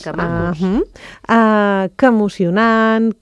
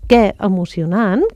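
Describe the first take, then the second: First: The word 'que' is unstressed with a neutral vowel. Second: The word 'que' is stressed with a full vowel. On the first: The speaker calls it right. "no porta accent i es pronuncia àton, és a dir, amb una vocal neutra" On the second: The speaker calls it wrong. "no és què emocionant, que sovint diem"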